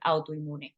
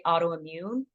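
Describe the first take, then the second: First: "autoinmune" said the Spanish way; Spanish pronunciation. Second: "autoimmune" said the English way; English pronunciation. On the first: Teacher showing clinicians the Spanish term, Spanish pronunciation of "autoinmune". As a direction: say "autoinmune" with Spanish vowels and an n before the m. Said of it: "it sounds nothing like". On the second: Teacher showing clinicians what won't get across, English pronunciation of "autoimmune". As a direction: say "autoimmune" as an ordinary English word. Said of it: "if you just say autoimmune". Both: Shown as a demonstration.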